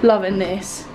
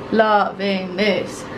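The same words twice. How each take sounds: First: Said in the usual way. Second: LOVING THIS stretched out slowly; drawn-out relish. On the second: Real, not acted. Vlogger delighted with the cabin, slow savouring repeat.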